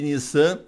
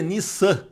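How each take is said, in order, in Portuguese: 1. A consoante do meio é um z sonoro e suave. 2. A consoante do meio é um s sibilante e nítido. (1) "A gente pronuncia como se fosse um, um S só porque está em português" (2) "a pronúncia é Nissan, com dois S"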